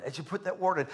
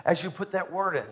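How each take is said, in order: Both takes have the same delivery.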